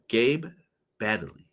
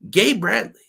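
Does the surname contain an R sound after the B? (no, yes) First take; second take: no; yes. First: The surname has no R sound after the B. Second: The surname has an R sound after the B. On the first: "please tell me if I'm saying that right" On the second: "I said Bradley. I always want to add the R"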